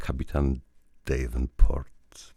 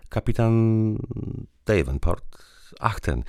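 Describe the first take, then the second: First: Slow drawn-out echo after a laugh; amused repeat. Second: High and bright, about to laugh; wife lightly amused at the captain's name. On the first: Woman repeating the captain's name, slowly amused. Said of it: "powtórzyła". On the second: Woman saying the captain's name before laughing. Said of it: "i zaczęła się śmiać". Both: A narrator's reading.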